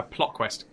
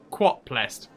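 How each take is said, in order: First: Said in the usual way. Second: "Quot plest", opening sounds of "plot quest" swapped; spoonerism. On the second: Shown as a demonstration. Streamer garbles plot quest as "Quot plest", spoonerism. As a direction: say "Quot plest" as a deliberate tongue-slip.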